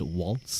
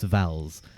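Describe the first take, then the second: First: The name starts with a W sound. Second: The name starts with a V sound. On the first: "apparently it's meant to be pronounced waltz" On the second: "I'm pretty sure they also say vowels"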